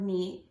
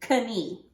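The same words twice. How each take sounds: First: The word begins with a plain N sound. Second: The word begins with a K sound before N. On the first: This is how it is said today. "we don't say that sound anymore" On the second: This is how it was said long ago. "it was once pronounced with the K sound"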